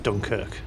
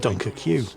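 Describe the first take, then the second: First: The name ends with a single 'kirk' syllable. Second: The name ends with a separate 'queue' sound. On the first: "What do you mean it's pronounced Dunkirk?" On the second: "if they want me to pronounce it Dunkirk, they shouldn't have spelled it Dunker Q"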